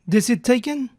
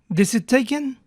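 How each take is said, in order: Both takes have the same delivery.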